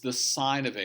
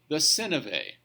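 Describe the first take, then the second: First: The first word rhymes with 'pine', long vowel. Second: The first word rhymes with 'pin', short vowel. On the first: The speaker calls it right. "It's the sine of A" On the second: The speaker calls it wrong. "don't be stupid and say the sin of A"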